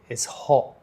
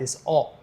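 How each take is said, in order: First: The h at the start of hot is pronounced. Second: The h at the start of hot is dropped. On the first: This is how younger South Londoners say it. "We say the H now" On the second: This is how an older Cockney speaker says it. "he would say"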